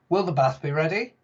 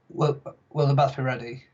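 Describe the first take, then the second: First: It is asked with question intonation. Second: It is read flatly, like a statement. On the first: The speaker calls it right. "it is a question, so you need to ask me a question ... That's how you say it" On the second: The speaker calls it wrong. "not just like"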